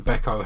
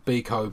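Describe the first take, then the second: First: Beko said as BECK-o; Beko with first syllable like "beck"; BECK-o pronunciation. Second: Beko said as BEE-ko; Beko with first syllable like "bee"; BEE-ko pronunciation. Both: Shown as a demonstration. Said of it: "however you say it".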